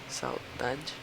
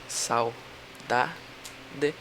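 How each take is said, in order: First: The word is said smoothly as one unit. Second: The word is broken into separate syllables.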